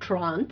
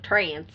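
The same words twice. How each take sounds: First: The word has a British pronunciation. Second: The word has an American pronunciation. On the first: "he calls it Trance" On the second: "you people in America call it Trance"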